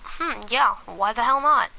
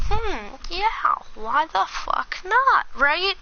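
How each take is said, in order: First: Said in the usual way. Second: Pitched well up, a drawn-out hmm of mock consideration; high mock musing. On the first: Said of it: "So then I'm like". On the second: To a friend about dating her friend, high mock musing. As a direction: play it like a shrugging yes, voice up high. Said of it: "And I'm like".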